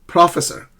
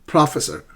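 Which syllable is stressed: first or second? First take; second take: first; first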